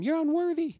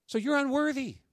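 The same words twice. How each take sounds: First: A playful, kind "You're unworthy." to your neighbor; said nicely. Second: Said in the usual way. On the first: Shown as a demonstration. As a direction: tell your neighbor "You're unworthy." gently, pitched higher, as a friendly tease. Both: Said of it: "Nicely tell him".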